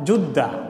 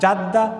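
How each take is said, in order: First: The first vowel is a u sound. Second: The first vowel is an a sound. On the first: "তিনোটা সহি" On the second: "তিনোটা সহি"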